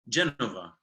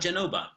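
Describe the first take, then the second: First: The middle consonant is a V sound. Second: The middle consonant is a B sound. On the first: The speaker calls it wrong. "the Italian pronunciation for Genoa" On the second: The speaker calls it right. "So with a B, not a V"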